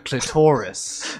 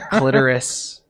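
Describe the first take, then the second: First: It is said in a British accent. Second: It is said in a New Jersey accent. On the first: "British people are like" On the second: "I think that's the Jersey way, like coffee"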